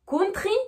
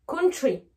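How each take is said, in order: First: COUNTRY with hard T and French R, higher; French-accented TR. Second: COUNTRY as "counchry". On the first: Teacher contrasting the two, COUNTRY with French TR. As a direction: sound T and R fully in COUNTRY. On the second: Teacher contrasting the two, COUNTRY with ch. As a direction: soften COUNTRY's TR to ch. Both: Shown as a demonstration. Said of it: "la différence entre les deux".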